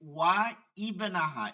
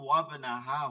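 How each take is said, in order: First: The 'i' sound before 'bnaha' is pronounced. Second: The 'i' sound is dropped, joining the words. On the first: "দেখেন ওয়া ইবনাহা এরকম" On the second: "আপনি যখন মিলাই পড়ছেন তখন ওয়াবনাহা হচ্ছে"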